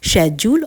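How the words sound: The word begins with an sh sound. "एक है British British accent"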